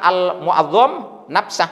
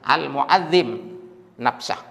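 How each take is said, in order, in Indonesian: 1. Vokal sebelum m terakhir adalah a. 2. Vokal sebelum m terakhir adalah i. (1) "Bukan al mu'azzam nafsah" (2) "Al mu'azzim dibaca kasrah nafsah"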